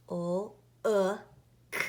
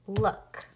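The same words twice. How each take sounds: First: "O-O-K" as separate sounds, L, short oo, K; sounded out. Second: Said in the usual way. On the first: Shown as a demonstration. Teacher tapping out look for pupils, sounded out. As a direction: say "O-O-K" sound by sound: lll, uh, k. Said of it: "we're learning this week that uh".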